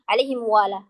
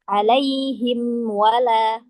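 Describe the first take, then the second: First: The m sound is dropped and merged into w. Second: The m sound is fully pronounced before w. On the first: The speaker calls it wrong. "Mimnya tidak terbaca" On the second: The speaker calls it right. "Tapi cara membacanya"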